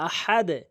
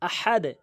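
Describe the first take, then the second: Both takes have the same delivery.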